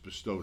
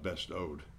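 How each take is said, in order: First: It is said as one smooth word. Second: It is split into two parts, best-owed. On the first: The speaker calls it right. "it's bestowed" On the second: The speaker calls it wrong. "I have a gap there. not bestowed"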